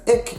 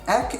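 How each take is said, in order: First: The vowel sounds like 'ee'. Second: The vowel sounds like 'eh'. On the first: This is the Kaaps dialect form. "is pronounced as ik in Afrikaaps" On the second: This is the standard Afrikaans form. "ek is pronounced as"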